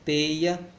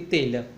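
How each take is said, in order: First: The middle consonant is a 'y' glide. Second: The middle consonant is a palatal 'lh' sound. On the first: This is the rural way of speaking. "pronúncia rural típica" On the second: This is the urban way of speaking. "pela urbana típica"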